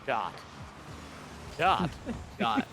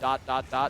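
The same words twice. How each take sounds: First: Said slowly and flatly, like a robot. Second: Said quickly, run together in rapid succession. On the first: "super monotone robotic voice" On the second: "multiple r- plays in rapid form"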